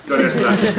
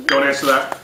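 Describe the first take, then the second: First: A hushed repeat of "Don't answer that."; playful whisper to the crowd; whispered aside. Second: Said in the usual way. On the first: Shown as a demonstration.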